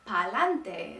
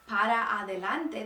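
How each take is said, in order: First: The words are shortened and run together. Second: The words are pronounced in full. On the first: "they cut off the ends of most of the words" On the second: "instead of saying para adelante"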